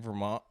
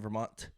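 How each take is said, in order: First: The final t becomes a glottal stop. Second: The final t is clearly pronounced. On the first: "I say like Vermont" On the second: "I don't say Vermont with like the T at the end"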